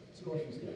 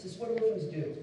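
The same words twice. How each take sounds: First: Hushed, weighty restatement; quiet repeat. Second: Said in the usual way. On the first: Shown as a demonstration. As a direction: lower and softer, letting it sink in.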